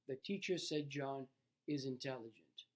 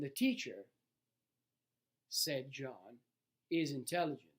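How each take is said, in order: First: It is said without pauses around 'said John'. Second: It has pauses before and after 'said John'.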